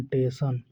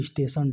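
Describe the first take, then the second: First: "टेशन" as te-san, no initial s; "टेशन" with the opening consonant lost; dropped first sound. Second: Said in the usual way. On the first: Shown as a demonstration. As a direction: leave off the s and start on t in "टेशन". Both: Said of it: "किसी वर्ण विशेष को लुप्त".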